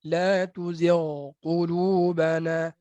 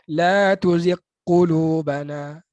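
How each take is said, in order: First: The gh sound is said clearly before the q. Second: The gh sound is merged into the following q. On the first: The speaker calls it right. "Betulkan ghain" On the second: The speaker calls it wrong. "Ini sangat ramai yang baca macam tu. ... Tak betul tu. Dia idghamkan ghain"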